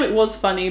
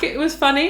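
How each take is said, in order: First: "was" emphasised, falling away after it; stress on "was". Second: Said in the usual way. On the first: Real, not acted. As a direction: concede it by leaning on "was". Concedes it was funny then too.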